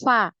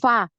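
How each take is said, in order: No difference in how they are said.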